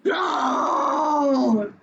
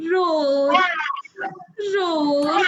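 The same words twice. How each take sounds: First: Fierce mock roar; teacher voicing an angry lion for the quiz. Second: A sad lion's roar; teacher voicing a sad lion for the quiz. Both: Shown as a demonstration. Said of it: "and he roars like this".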